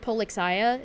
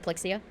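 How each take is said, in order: First: Every syllable is pronounced clearly and separately. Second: The first syllables are squeezed together into one. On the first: "Like you pronounce like each syllable" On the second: "instead of plexia"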